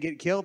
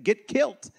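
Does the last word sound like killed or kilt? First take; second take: killed; kilt. First: The last word sounds like plain killed. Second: The last word sounds like kilt. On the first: "Instead of saying get killed" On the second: "they said get killed. It sounds Irish to me, a kilt"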